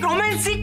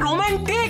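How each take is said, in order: First: An s sound comes before the final 'ik'. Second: A t sound comes before the final 'ik'. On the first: The speaker calls it wrong. "রোমান্সিক নয়" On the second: The speaker calls it right. "এটা রোমান্টিক"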